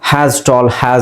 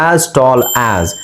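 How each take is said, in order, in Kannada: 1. ಪ್ರತಿ 'as' ಗೆ ಹೆಚ್ಚುವರಿ h ಶಬ್ದ ಸೇರುತ್ತೆ. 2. ಪ್ರತಿ 'as' ಸ್ವರದಿಂದ ಶುರುವಾಗುತ್ತೆ, h ಇಲ್ಲ. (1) "has tall has ಅಂತ ಹೇಳ್ತಾರೆ ತುಂಬಾ ಜನ" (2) "as tall as ಅಲ್ಲಿ ಎಚ್ ಬರಬಾರ್ದು"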